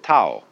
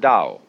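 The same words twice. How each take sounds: First: The word begins with a sharp T sound. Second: The word begins with a soft D sound. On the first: "If there were an apostrophe after the T, you would pronounce it Tao" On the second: "they could have spelled it D-A-O or D-O-W"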